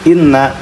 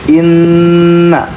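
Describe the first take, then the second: First: The nasal n is cut short without holding. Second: The nasal n is held for two counts. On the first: The speaker calls it wrong. "jangan langsung mimma, inna, jangan seperti itu" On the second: The speaker calls it right. "Tapi harus ada ditahan dulu"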